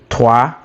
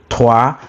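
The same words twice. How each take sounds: Both takes have the same delivery.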